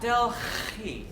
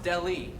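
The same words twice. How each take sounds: First: The h sound is clearly pronounced. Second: The h sound is left out completely. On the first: The speaker calls it wrong. "not Delhi" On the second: The speaker calls it right. "the H is actually silent"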